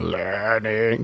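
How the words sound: It is said in a deep, low voice. "jamming on his occasional deep voice"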